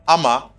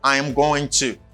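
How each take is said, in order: First: The phrase is squeezed into two short syllables. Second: The phrase is said fully, every word distinct.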